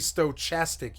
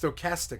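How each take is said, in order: First: The middle consonant is not a K sound. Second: The middle consonant is a K sound. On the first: The speaker calls it wrong. "That would never be stochastic, you fucking idiot" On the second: The speaker calls it right. "Castic with a K. It's a K"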